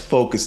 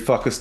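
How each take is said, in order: First: The word sounds like 'focus'. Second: The word sounds like 'fuck us'. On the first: The speaker calls it right. "it's focus, dude" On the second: The speaker calls it wrong. "instead of saying focus, he kept saying fuck us"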